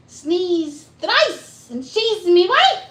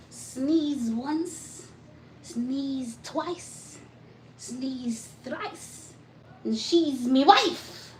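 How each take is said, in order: First: High, loud mock Irish leprechaun lilt. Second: A light playful Irish leprechaun lilt; mock Irish rhyme, half-sung and lilting. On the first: Repeating the rhyme for viewers, in a loud, high mock Irish lilt. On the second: Teasing chat viewers in a light mock Irish leprechaun lilt. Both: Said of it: "It was that leprechaun voice".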